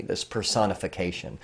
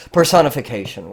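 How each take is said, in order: First: Said in the usual way. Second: Personification said louder, with a falling tune; stressed term. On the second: Shown as a demonstration. Teacher repeating the key term to students, stressed. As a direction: repeat Personification firmly so it sticks. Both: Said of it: "what does that mean?".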